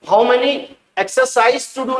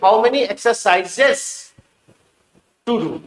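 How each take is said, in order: First: The final plural ending is left off. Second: The final plural ending is clearly pronounced. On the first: The speaker calls it wrong. "नहीं" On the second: The speaker calls it right. "आप एस को proper pronounce कीजिए"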